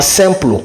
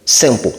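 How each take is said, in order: First: "simple" ending in a French-style "plo"; wrong "plo" ending. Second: "simple" as "sem-po", with no L heard; "po" ending. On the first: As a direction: sound the L in "simple", as "sem-plo". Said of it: "c'est pas simple". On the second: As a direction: drop the L at the end of "simple". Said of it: "c'est pour, simple". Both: Shown as a demonstration.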